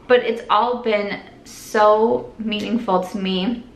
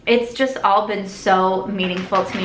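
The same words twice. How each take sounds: First: Slow, careful, fighting tears; slow down so you don't cry; holding back tears. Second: Said in the usual way. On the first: Real, not acted. Thanking her followers, slow and close to tears. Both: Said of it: "try really hard not to cry".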